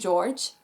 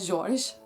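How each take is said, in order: First: The name is said with an English accent. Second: The name is said with a French accent.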